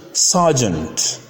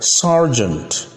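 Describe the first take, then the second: First: "sergeant" as "sah-jent", no r; British pronunciation. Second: "sergeant" with r in the first syllable; American pronunciation. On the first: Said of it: "is British". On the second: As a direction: say "sergeant" American, "sar-jent". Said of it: "sergeant is American". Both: Shown as a demonstration.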